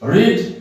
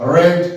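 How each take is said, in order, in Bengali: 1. স্বরধ্বনিটি দীর্ঘ, 'reed'-এর মতো। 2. স্বরধ্বনিটি হ্রস্ব, 'red'-এর মতো। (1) "প্রেজেন্ট ফর্মে রিড" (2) "পাস্ট ফর্মে"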